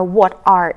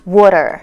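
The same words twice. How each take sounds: First: Said in the usual way. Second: "water" with a tapped t, said as one word; reduced "what are". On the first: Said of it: "When there are". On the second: Shown as a demonstration. Teacher shows what replaces two words, linked "water". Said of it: "exchange it with".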